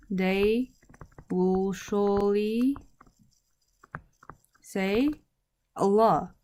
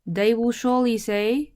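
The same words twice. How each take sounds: First: Slow, with long pauses between words; word-by-word dictation. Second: Said in the usual way. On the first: Shown as a demonstration. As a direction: spell out the translation slowly for learners. Teacher repeats translation word by word.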